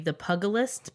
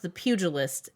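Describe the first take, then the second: First: The first syllable sounds like the word 'pug'. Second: The first syllable does not sound like 'pug'. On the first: It is a pun on a pug dog. "it's clearly the pugilist because it's a pug" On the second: It is the ordinary word for a boxer. "would be pronounced the pugilist"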